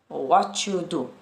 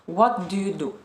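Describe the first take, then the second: First: The words are run together and reduced. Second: Each word is said separately and fully. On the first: The speaker calls it right. "it's just connecting everything" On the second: The speaker calls it wrong. "native speakers never say like this"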